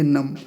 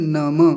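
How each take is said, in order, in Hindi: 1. शब्द m ध्वनि पर समाप्त होता है। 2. शब्द का अंत छोटे a स्वर से होता है। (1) "हिंदी में इसे नम बोलेंगे" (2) "यहाँ संस्कृत है तो क्या बोलेंगे नम"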